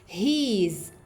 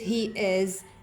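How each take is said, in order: First: It is said contracted into one syllable. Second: It is said as two separate full words. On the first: The speaker calls it right. "we read it he's" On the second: The speaker calls it wrong. "We don't read it he is"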